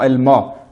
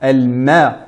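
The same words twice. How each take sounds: First: The m sound is heavy and darkened. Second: The m sound is light and thin. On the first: The speaker calls it wrong. "et non al-ma" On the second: The speaker calls it right. "la lettre mim est prononcée de manière amincie"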